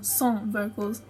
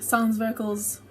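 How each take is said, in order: First: 'Sans' is said with a French pronunciation. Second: 'Sans' is said with an English pronunciation.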